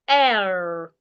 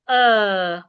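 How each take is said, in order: First: The vowel is said in an American accent. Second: The vowel is said in a British accent. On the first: "Americans articulate the sound as air" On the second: "British articulate it as uh"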